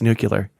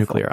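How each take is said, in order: First: It is said the Texas way, like nucular. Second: It is said the standard way, like new-clear.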